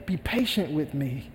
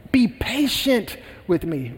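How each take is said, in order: First: Soft, lower pleading; begging. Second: Said in the usual way. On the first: Acted. Servant begging the king for time, softly. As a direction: drop the voice and beg. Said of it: "he begged".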